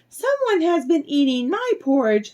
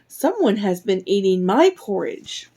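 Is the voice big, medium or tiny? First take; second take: tiny; medium. First: It is said in a tiny, little voice. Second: It is said in a medium-sized voice. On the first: A small character is speaking. "cried out in his little tiny voice" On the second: A middle-sized character is speaking. "cried out in her medium-sized voice"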